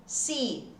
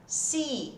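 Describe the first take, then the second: First: "Sea" said again with a long I sound; long ee vowel. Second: "Sea" said as a long I sound, not cia; long ee vowel. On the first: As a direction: repeat "Sea" clearly with a long ee. ("Sea" repetido com som de I) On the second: ("Sea" com som de I, não "cia") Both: Shown as a demonstration. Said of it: "o E e o A som de I".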